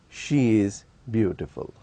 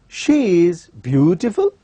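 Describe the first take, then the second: First: The pitch stays level and neutral. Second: The pitch rises and then falls. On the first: She is beautiful enough, though not very. "it can also be used in a neutral tone" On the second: The beauty is being questioned. "we are using rising falling tone"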